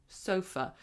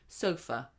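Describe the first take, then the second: The two takes are said the same way.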